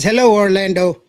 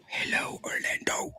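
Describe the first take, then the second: First: Said in the usual way. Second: Soft whispered greeting. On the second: Shown as a demonstration. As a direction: breathe the hello, no voice. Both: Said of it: "[name] says".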